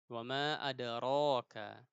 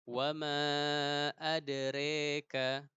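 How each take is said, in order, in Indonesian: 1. Vokal setelah r adalah a terbuka yang biasa. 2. Vokal setelah r condong ke e. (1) "dibaca biasa saja" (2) "selalu diimalahkan, dibaca mereng"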